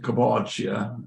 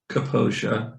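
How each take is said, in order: First: The name is said with its original Italian sounds. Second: The name is said with simplified English sounds. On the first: This is how the family's older generation says it. "my father would pronounce it" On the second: This is a simplified version that is easier for English speakers. "I kind of simplify it ... it's anglicized"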